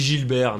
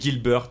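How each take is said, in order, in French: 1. Le nom se prononce à la française. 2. Le nom se prononce à l'anglaise. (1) "mais nous on dit Gilbert" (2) "Ça se dit Gilbert"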